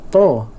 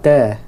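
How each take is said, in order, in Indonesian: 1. Vokalnya 'o' yang berat dan membulat. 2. Vokalnya 'a' yang ringan dan terbuka. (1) "bukan to" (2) "huruf ta nah"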